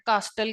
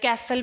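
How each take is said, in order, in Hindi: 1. बीच में t का उच्चारण होता है। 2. पहला स्वर 'cat' जैसा है। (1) "जिसको हम गलत प्रोनाउंस करते हैं, कास्टल कहते हैं" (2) "या कैसल भी बोलते हैं"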